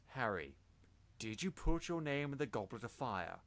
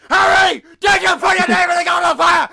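First: It is asked calmly and gently. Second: It is asked angrily and aggressively.

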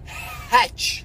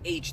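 First: The letter name starts with an h sound. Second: The letter name starts with a vowel sound. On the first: This is how people here say it. "they say Hatch" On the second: This is not how people here say it. "they don't say H"

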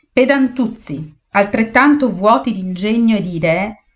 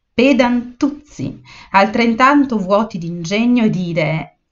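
Both takes have the same delivery.

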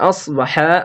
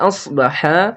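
The two takes are said the same way.

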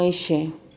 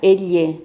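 First: The ll is said the Buenos Aires way. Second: The ll is said the northeastern Argentine way. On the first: "no elle" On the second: "En Chaco, Corrientes, Formosa y Misiones... se utiliza elle"

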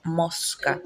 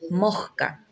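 First: The s is pronounced as a clear hiss. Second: The s becomes a breathy h-like sound. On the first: "no decimos mosca como se escribe" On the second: "como con una J"

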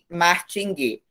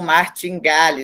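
First: It ends in a short 'guê' sound. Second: It is pronounced letter by letter as spelled. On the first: The speaker calls it right. "o ideal, o certo é martinguê" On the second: The speaker calls it wrong. "tem os portugueses que lê conforme escrito"

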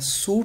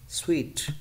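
First: The word sounds like 'suit'. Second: The word sounds like 'sweet'. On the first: The speaker calls it wrong. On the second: The speaker calls it right.

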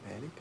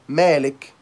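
First: The name is said in a quiet voice. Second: The name is said in a loud voice. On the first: The listener cannot hear it. "so he couldn't hear me, so my voice wasn't loud" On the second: The listener can hear it easily. "so Malik can hear me, so my voice is loud"

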